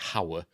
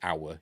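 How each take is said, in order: First: The starting H sound is pronounced. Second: The starting H sound is dropped. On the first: The speaker calls it wrong. "You don't say hour" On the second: The speaker calls it right. "You drop the H, don't you"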